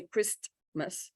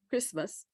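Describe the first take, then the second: First: "Christmas" with a clear T sounded before the M; wrong spelling pronunciation. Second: "Christmas" with no T, just kris-mas; "Christmas" in two syllables, T silent; correct pronunciation. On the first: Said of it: "you write a T, but you don't say". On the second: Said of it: "so that's how we say it". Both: Shown as a demonstration.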